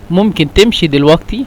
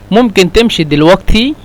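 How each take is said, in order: First: The qaf is said as a gh sound. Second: The qaf is said as a gh sound.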